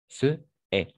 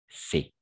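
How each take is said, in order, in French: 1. Deux voyelles sont prononcées en syllabes séparées. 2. Les voyelles fusionnent en une seule syllabe élidée. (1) "parce qu'il y a de la même façon ces deux voyelles ensemble" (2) "on va faire le phénomène qui s'appelle l'élision"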